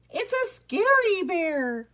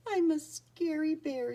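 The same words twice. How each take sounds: First: High, drawn-out loud cry; panicked alarm. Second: Mild tearful, higher-pitched bear voice; sniffling. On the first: Rat Pack calling for help from Boris, panicked alarm. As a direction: wail it like a terrified storybook rat. Rats panic at sight of bear. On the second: Lonely bear Boris feeling left out, sniffling. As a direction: read it as a sad bear sniffling, gently. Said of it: "he sniffed". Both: A narrator's reading.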